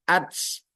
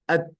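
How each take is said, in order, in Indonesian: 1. Bunyi t di akhir dilepas dengan desis seperti s. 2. Bunyi t di akhir dilepas hanya dengan sedikit hembusan udara. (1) "Bukan ats" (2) "Begitu juga ta jadi at"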